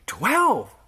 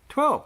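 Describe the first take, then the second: First: It is said in an amazed, astonished tone. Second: It is said in a clueless, uncertain tone. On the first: The disciples are struck by the miracle. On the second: The disciples do not grasp the point. "like in a clueless way"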